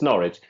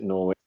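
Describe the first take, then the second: First: It is said the local English way. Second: It is said the North American way. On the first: The speaker calls it right. "but it's Norwich" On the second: The speaker calls it wrong. "Most uh, Canadian or American people call it Norwich. You know, they pronounce it Norwich"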